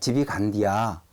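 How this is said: It is said in Chungcheong dialect form. "애를 야로 이렇게 또 말하는"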